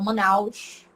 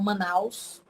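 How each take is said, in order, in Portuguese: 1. O S final é um chiado, como o som de sh. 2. O S final é um som sibilante simples. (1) "eles falam chiado, o S" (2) "eles não falam Manaus"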